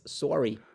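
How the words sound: It is said with a Canadian vowel. "You say sorry in a Canadian way"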